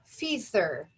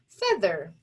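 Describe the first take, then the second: First: The first vowel sounds like a long 'ee'. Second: The first vowel sounds like a short 'eh'. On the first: The speaker calls it wrong. "we're going to try the most common way first" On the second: The speaker calls it right. "let's switch to the other vowel sound"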